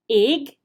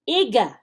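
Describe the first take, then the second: First: The final g ends cleanly with no added vowel. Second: An extra uh vowel follows the final g. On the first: The speaker calls it right. "you just stop and correct it" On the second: The speaker calls it wrong. "they say it back to you incom- incorrectly"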